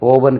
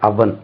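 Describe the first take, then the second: First: The first vowel is a long 'oh' sound. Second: The first vowel is a short 'uh' sound. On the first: The speaker calls it wrong. "ஓவன் கிடையாது" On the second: The speaker calls it right.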